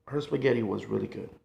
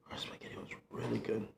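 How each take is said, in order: First: Said in the usual way. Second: Hushed confiding whisper. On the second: Shown as a demonstration. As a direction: repeat it in a breathy whisper.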